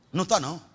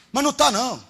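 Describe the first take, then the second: First: Said in the usual way. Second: Louder, higher denial; preacher shouting it down. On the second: Acted. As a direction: hammer the denial home.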